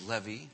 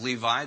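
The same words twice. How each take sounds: First: The name is said with modern Hebrew pronunciation. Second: The name is said with ordinary English pronunciation.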